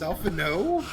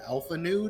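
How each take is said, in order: First: The second word ends with a plain 'no' sound. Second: The second word ends with a 'nood' sound. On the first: The speaker calls it right. "It's Alpha No" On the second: The speaker calls it wrong. "that's how I pronounced it"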